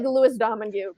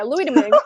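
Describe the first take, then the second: First: The name is read the way it looks. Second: The name is said unlike its written form. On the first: The speaker calls it wrong. "it looks like" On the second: The speaker calls it right. "but yeah"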